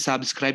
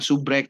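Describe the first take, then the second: First: The word is said in full, with the scr cluster. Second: The word is shortened, dropping the scr cluster. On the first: This is the standard English form. "kita bilang subscribe" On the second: This is how the mentees themselves say it. "dia bilang subrek"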